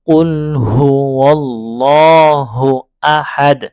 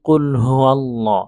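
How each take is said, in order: First: "ওয়াল্লাহু" loud and drawn out, starting on a clear w; correct waw recitation. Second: "কুল হু আল্লাহ" with a glottal start on "আল্লাহ", no w; alif replacing waw. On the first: Teacher correcting the mistake, "ওয়াল্লাহু" with clear w, loud and slow. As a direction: glide from "হু" into w of "ওয়াল্লাহু", holding the long vowel. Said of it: "এটা খুব খেয়াল করতে হবে". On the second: Teacher showing a common mistake, "আল্লাহ" begun with hamza instead of w. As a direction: break before "আল্লাহ", starting it on a bare vowel. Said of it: "আলিফের উচ্চারণ করে ফেলে".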